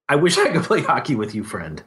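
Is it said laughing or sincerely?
laughing. It is said while laughing at himself.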